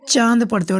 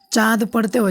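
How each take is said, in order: First: चांद with the vowel hummed through the nose, chandrabindu; nasal vowel. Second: चांद with a plain oral vowel, no hum through the nose; no nasal. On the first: Teacher showing pupils the nasal चांद of chandrabindu. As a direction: let चांद vibrate a little in the nose. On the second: Teacher showing pupils the wrong, oral चांद. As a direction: say चांद flat through the mouth, no nasal ring. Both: Shown as a demonstration. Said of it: "नाक में थोड़ा सा vibrate लगाना पड़ता है".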